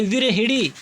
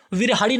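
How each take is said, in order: First: विरहिणी said with clear णी ending; विरहिणी, teacher's correct form; correct pronunciation. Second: विरहाड़ी said as wrong form with retroflex ड़; विरहाड़ी, teacher's incorrect example; wrong spelling-pronunciation. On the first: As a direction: say विरहिणी properly, slowly. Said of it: "होता है विरहिणी". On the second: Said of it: "विरहाड़ी नहीं होता है". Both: Shown as a demonstration.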